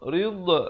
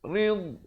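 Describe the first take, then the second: First: The final consonant ends with a bouncing echo. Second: The final consonant ends without any bouncing echo. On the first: The speaker calls it wrong. "Jangan baca afamanit taba'a rid, rid. Itu tak ada, salah" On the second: The speaker calls it right. "Jangan berikan pantulan"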